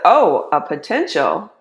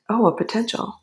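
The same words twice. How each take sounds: First: It sounds excited and eager. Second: It sounds reluctant and unenthusiastic.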